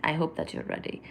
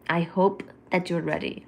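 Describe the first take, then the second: First: Soft, breathless whisper of the same line; hushed teasing whisper. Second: Said in the usual way. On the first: Shown as a demonstration. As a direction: whisper it close to the mic. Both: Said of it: "repeated in a whisper".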